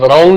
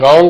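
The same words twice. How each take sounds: First: A w sound is heard before the r. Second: No w sound is heard before the r. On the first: The speaker calls it wrong. "ਇਹ ਰੌਂਗ ਨਹੀਂ ਹੈ" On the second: The speaker calls it right. "ਡਬਲਿਊ silent ਹੈ"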